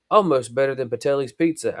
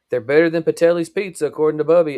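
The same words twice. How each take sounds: First: Said in the usual way. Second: "Patelli's pizza" higher and louder, proud; proud announcement. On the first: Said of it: "Alex assured her". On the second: A narrator's reading. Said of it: "Amy announced proudly".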